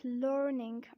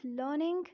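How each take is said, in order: First: American "learning", R clearly sounded; American accent. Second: British "learning", R silent; British accent. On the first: Teacher contrasting accents for learners, American "learning". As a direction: put the R into "learning", 'lurr-ning', American style. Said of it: "in American accent we say it". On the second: Teacher contrasting accents for learners, British "learning". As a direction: say "learning" as 'luh-ning', British style. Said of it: "in British accent we say it". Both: Shown as a demonstration.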